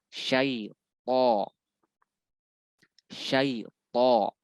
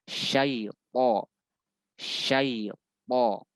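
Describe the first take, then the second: No difference in how they are said.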